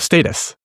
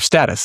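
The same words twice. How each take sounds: First: It is said in a British way. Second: It is said in an American way.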